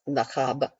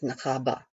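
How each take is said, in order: First: The word ends sharply on the b. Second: The word ends with a short weak vowel. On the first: The speaker calls it wrong. "It isn't just Nachab" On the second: The speaker calls it right. "You have to have that little schwa that goes on at the end"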